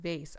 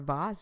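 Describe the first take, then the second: First: The word is said in the plain, everyday way. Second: The word is said in a fancy, posh way.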